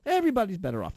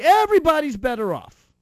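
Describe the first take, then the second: First: Said in the usual way. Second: Mock cheerful. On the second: Real, not acted. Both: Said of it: "repeated punchline".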